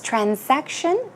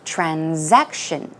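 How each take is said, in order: First: It is said with an S sound after 'tran'. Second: It is said with a Z sound after 'tran'. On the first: "With an S pronunciation" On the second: "even more commonly, it is pronounced with a Z sound"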